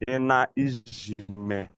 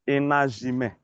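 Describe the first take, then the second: First: The word is split into separate parts. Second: The word is run together as one. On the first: The speaker calls it wrong. "when you want to break the word, you want to break it down" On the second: The speaker calls it right. "When you want to pronounce them together, you say enajime"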